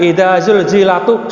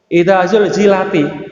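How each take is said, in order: First: The word zulzilat ends with a u vowel. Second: The word zulzilat ends with an i vowel. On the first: The speaker calls it wrong. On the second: The speaker calls it right.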